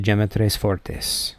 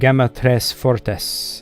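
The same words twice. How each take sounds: First: The name is said in a Spanish-English style. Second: The name is said in a Latin style. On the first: "I'm pronouncing that sort of like a Spanish-English mix" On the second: "In Latin, it's probably like"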